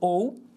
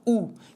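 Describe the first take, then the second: First: It is said as two separate vowel sounds. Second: It is said as one single vowel sound. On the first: The speaker calls it wrong. "na verdade, não é pronunciado ou" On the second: The speaker calls it right. "deve ser pronunciado como um som só, U"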